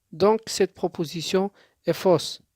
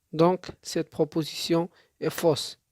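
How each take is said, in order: Both takes have the same delivery.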